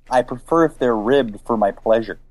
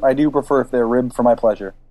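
First: It is said slowly. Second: It is said fast.

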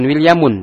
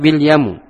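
First: The name ends with an added n sound. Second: The name ends in a vowel, no n. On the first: The speaker calls it wrong. "bukan wil yamun" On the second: The speaker calls it right. "tapi wil yamu"

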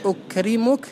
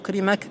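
First: The vowel before the final -ka is 'u'. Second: The vowel before the final -ka is 'a'. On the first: The verb is in the indicative (marfu') mood. "بالرفع" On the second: The verb is in the subjunctive (mansub) mood. "بالنصب"

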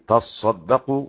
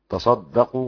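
First: The s sound is doubled and held longer. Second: The s sound is single and light. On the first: "والباقي" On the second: "عاصم يخفف الصاد"

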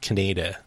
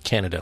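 First: The name is not said like the country. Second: The name is said like the country. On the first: "Not Canada" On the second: "but Canada, like the country"

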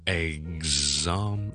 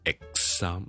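First: The x is a voiced gz sound. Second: The x is a voiceless ks sound. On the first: The speaker calls it right. "嗰个做呢个过程嘅时候系voice 做嘅" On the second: The speaker calls it wrong. "呢个就系k s，但系我哋唔要k s"

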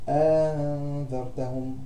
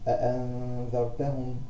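First: A long vowel precedes the softened second glottal stop. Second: The second glottal stop is fully pronounced. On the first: "ثم مسهلة مع الإدخال" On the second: "هنطقها محققة"

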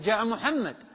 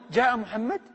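First: It is said with statement intonation. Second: It is said with question intonation. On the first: It reports that someone came. "هنا حالة إخبار فتقول جاء محمد" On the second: It asks whether someone came. "لكن هنا جاء محمد"

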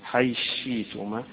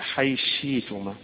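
No difference in how they are said.

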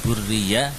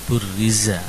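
First: The consonant after 'burri' is a y sound. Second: The consonant after 'burri' is a z sound. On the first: The speaker calls it wrong. "bukan burriya" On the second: The speaker calls it right.

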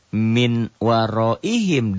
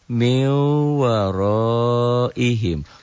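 First: The n sound is kept before the w. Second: The n sound is merged into the w. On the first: This is how it is written. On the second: This is how it is read aloud. "Dibunyikan, dibacanya, jadi N-nya double M"

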